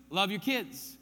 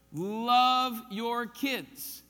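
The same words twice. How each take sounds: First: Said in the usual way. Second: Put-on Love your kids drawn out very slowly and louder, each word weighted; slow emphatic repeat. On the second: Shown as a demonstration. Preacher repeating the point to parents, slow and emphatic.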